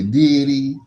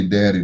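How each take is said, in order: First: "daddy" said higher and louder, stretched out; imitated drawn-out daddy. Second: Said in the usual way. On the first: Shown as a demonstration. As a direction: lift "daddy" up and stretch the first vowel. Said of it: "They say daddy". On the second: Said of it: "They don't say daddy".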